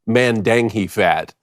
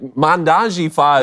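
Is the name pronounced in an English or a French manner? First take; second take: English; French. First: The name is pronounced in a plain English way. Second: The name is pronounced in a French-sounding way.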